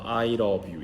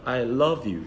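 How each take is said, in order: First: The pitch stays flat throughout. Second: The pitch goes up and down. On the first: The speaker calls it wrong. "이게 아니라" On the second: The speaker calls it right. "이런 식으로 올라가고 내려가는"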